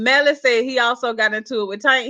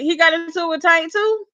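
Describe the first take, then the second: First: Said in the usual way. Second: Higher, questioning surprise; surprised question. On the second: Real, not acted. Host reacting to a viewer's news about Tank, surprised question. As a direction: ask it back in real surprise, pitch climbing. Reacts to the comment just read.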